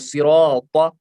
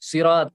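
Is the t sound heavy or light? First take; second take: heavy; light. First: The t sound is thick and heavy. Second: The t sound is thin and light. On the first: The speaker calls it right. "हाँ पढ़ेंगे सिरात" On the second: The speaker calls it wrong. "सिरात अगर पढ़ेंगे तो वो गलत है"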